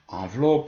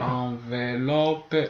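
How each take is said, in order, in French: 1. Le E du milieu ne se prononce pas. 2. Le E du milieu se prononce.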